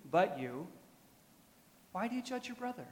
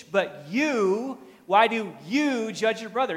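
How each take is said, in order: First: Softer, higher questioning read. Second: Both YOUs punched high and loud; louder, higher read, hitting each "you" hard; stress on YOU. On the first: Acted. Preacher first reading Paul's question to the church, soft challenge. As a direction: read the challenge softly, pitch lifting on the question. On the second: Shown as a demonstration. Preacher showing the Greek emphasis to the congregation, stress on "you". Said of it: "He says the word "you" twice".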